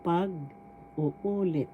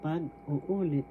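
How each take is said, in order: First: "Pag-uulit" very slow, leaning on the second u; stress on third syllable. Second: Said in the usual way. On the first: Shown as a demonstration. Teacher shows where the accent is, slow stressed demonstration. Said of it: "The accent is in the third syllable". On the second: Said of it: "so you say it".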